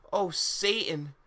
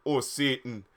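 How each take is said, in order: First: High, slow exclamation; drawn-out mock cry; mild mock yell. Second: Understated put-on exclamation at normal pitch; mock pleasured cry. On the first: Harry calling out to Satan, mild mock yell. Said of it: "yelled Ha". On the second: Harry calling out in pleasure, lightly mocked. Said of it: "yelled Harry in pleasure". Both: A narrator's reading.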